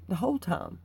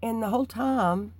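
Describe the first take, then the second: First: Said in the usual way. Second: Whole lifted high and louder, rising; stress on whole. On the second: Real, not acted. Telling viewers how long she prayed, stressing whole. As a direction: lean up into the word whole.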